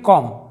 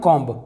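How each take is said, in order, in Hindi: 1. शब्द m पर खत्म होता है, b नहीं। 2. शब्द एक सुनाई देने वाली b ध्वनि पर खत्म होता है। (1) "इसे हम पढ़ेंगे कॉम" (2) "ना कि इसे पढ़ेंगे हम कॉम्ब"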